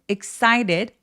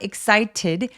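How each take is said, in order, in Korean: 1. 중간의 t는 짧게 굴리는 소리예요. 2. 중간의 t는 완전한 t예요. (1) "굴리는 소리" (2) "T 발음 원래대로 그냥 내줘도 당연히 괜찮고요"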